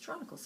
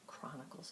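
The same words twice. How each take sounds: First: The word begins with a 'ch' sound. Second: The word begins with a 'k' sound. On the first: The speaker calls it wrong. "I thought it was Chronicles because it starts with C H" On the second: The speaker calls it right. "he corrected me and said, actually, [name], it's Chronicles of Narnia"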